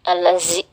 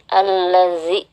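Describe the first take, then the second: First: The middle consonant is a buzzing z sound. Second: The middle consonant is a soft th sound. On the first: The speaker calls it wrong. "jangan sampai berubah menjadi huruf zain ya. Jangan alazi" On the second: The speaker calls it right. "Lembutkan suara untuk mengucapkan huruf zal seperti itu"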